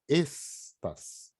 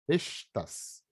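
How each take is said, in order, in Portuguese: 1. O primeiro s é um som de s, sibilante. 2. O primeiro s é um som de sh, chiado. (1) "Tem que falar estas. É um S sibilante" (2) "o S carioca é complicado também. Não pode falar"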